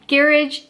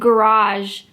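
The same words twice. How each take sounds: First: It uses the English pronunciation. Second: It uses the Canadian pronunciation. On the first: "garage in England" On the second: "garage in Canada"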